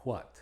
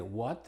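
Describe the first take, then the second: First: "what" starting "hw", as "hwot"; "what" with an audible H before the W; H sounded before W. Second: "what" starting on a simple W; "what" with the H left silent; W without H. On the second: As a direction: say "what" as "wot", no puff of H. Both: Shown as a demonstration. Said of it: "es opcional en palabras".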